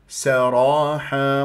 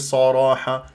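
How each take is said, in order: First: The first s sound is light and thin. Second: The first s sound is heavy and emphatic. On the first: The speaker calls it right. "مرققة" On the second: The speaker calls it wrong. "ما تقول لي صراحة"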